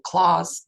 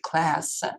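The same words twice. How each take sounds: First: It is said in a British accent. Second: It is said in an American accent. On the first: "If British pronunciation are, for example" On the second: "in American English it will be"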